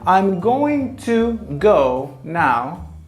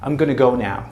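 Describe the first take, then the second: First: Going to is said in full, two separate words. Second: Going to is reduced and run together as gonna. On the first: The neutral, formal way of saying it. "when we say" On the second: An informal, casual way of saying it. "And it goes like this"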